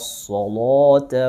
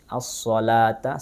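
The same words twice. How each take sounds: First: The L sound is thick and heavy. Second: The L sound is thin and light. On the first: "Warsh membaca dengan taghlil" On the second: "dengan tarqiq"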